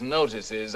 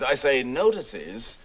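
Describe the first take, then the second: First: Said in the usual way. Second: "notices" drawn out slowly for emphasis; emphatic repetition. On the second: Acted. Lecturer repeating a point to gentlemen, "notices" slow and emphatic.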